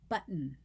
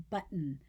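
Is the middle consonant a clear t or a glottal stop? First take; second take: glottal stop; glottal stop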